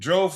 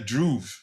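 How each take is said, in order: First: The vowel sounds like 'oh'. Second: The vowel sounds like 'oo'. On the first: The speaker calls it wrong. "it's not Drove" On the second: The speaker calls it right. "like Hoover, since it's who"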